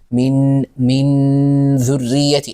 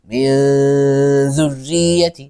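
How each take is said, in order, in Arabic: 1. النون صوت كامل ممطوط يلتصق فيه اللسان بالحنك. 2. النون مخفاة غنّة من غير التصاق اللسان بالحنك.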